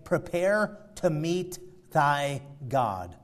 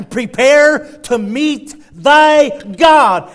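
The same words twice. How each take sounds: First: Softer and slow, grave; hushed solemn repeat. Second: Slow, loud, drawn-out proclamation; booming warning. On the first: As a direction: let the warning fall quiet and slow. Same verse repeated, hushed. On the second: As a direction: thunder it out slowly like a prophet's warning. Preacher booms scripture warning. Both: Acted.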